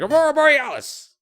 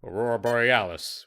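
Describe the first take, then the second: First: It is said with wonder and amazement. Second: It is said with calm, firm authority. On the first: "Just be like, wow, this is Aurora Borealis" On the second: "with the certitude of of ages of, of principalhood"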